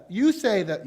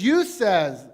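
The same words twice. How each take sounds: First: Said in the usual way. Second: Slipped into a Southern drawl on "You says", the "says" said as "sez"; "You says" with a Southern twang, "says" rhymes with "fez"; an accidental Southern "You says". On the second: Real, not acted. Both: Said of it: "that's a southern drawl right there".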